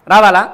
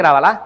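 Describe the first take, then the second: First: రావాలా? repeated louder with a long final aa; louder challenging repeat; emphatic question. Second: రావాలా? asked low and quiet with a small rise; quiet rhetorical question; low, soft question. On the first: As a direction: push రావాలా? out to challenge the crowd. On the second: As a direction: murmur రావాలా? as if doubting. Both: Shown as a demonstration.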